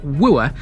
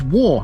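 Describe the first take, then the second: First: It is said with an 'oo' vowel sound. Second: It is one syllable rhyming with 'more'. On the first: The speaker calls it wrong. "It's not Wooer" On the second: The speaker calls it right. "that is how you pronounce this"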